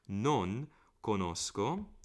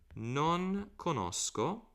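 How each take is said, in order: First: Non has an Italian-sounding vowel. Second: Non has an English-sounding vowel. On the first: The speaker calls it right. "Non is the proper pronunciation" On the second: The speaker calls it wrong. "I'm doing it too English here"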